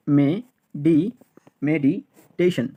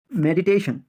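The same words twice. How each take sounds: First: meditation built up slowly, me-di, medi-teshon; syllable by syllable. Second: Said in the usual way. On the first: Shown as a demonstration. Teacher drilling learners, meditation built up in slow pieces.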